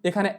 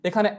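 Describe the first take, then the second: No difference in how they are said.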